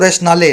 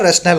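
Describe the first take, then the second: First: The word ends with an extra vowel after L. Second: The word ends on the L sound. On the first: The speaker calls it wrong. "वैसे बोलने में आप बोलोगे इसको रैशनाले, लेकिन रैशनाले नहीं होता है" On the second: The speaker calls it right. "रैशनल होता है"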